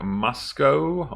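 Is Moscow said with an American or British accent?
British. It is said with a British accent.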